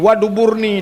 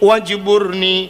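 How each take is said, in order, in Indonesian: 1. Bagian tengahnya terdengar 'dubur' dengan bunyi d. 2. Bagian tengahnya terdengar 'jbur' dengan bunyi j.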